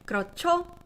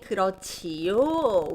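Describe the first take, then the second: First: The ending is contracted into one syllable. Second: The ending is said as two full syllables. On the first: It sounds like everyday speech. The speaker calls it right. "You'll hear 조 as the shortened version of 지요" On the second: It sounds like textbook language. The speaker calls it wrong. "You wouldn't hear people saying 그렇지요. We don't talk like textbooks"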